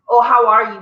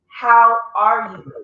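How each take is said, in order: First: It sounds casual and offhand. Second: It sounds sincere and caring.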